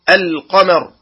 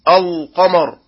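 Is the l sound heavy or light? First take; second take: Light; Heavy. First: The l sound is light and thin. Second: The l sound is heavy and thick. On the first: The speaker calls it right. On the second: The speaker calls it wrong.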